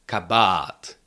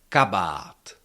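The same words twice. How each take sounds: First: The stress is on the second syllable. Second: The stress is on the first syllable. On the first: The speaker calls it wrong. "Never can you pronounce it like something like kabat" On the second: The speaker calls it right. "the stress is still on the first syllable. So you have to say kabat"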